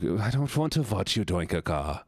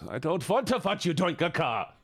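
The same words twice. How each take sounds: First: Restrained mock German objection; German-accented protest. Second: Higher, exasperated mock German outburst; emphatic German-accented protest. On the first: First take of protest, German voice. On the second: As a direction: repeat it insistently with a thick German accent. Repeats protest more emphatically.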